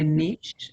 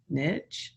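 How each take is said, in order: First: The word is pronounced in a fancy, refined way. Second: The word is pronounced in a plain, everyday way. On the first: The speaker sounds sophisticated. "if you'd like to sound fancy, you can say niche" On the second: The speaker sounds ordinary and down-to-earth. "if you want to sound like me, you say niche"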